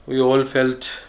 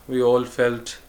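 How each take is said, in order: Both takes have the same delivery.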